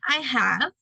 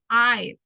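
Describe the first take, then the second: First: Both words are said fully and separately. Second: The two words merge into one short syllable. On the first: "You say I have" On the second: "if you contract that, you say I've"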